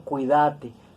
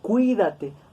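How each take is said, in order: First: The stress is on the second-to-last syllable. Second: The stress is on the third-to-last syllable. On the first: This is the Argentine way of saying it. "Los argentinos lo pronuncian como palabra grave, ellos dicen cuídate" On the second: This is the speaker's own regional way of saying it. "Nosotros lo pronunciamos como esdrújula y decimos cuídate"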